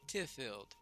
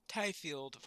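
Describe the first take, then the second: First: The first syllable does not sound like 'tie'. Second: The first syllable sounds like 'tie'.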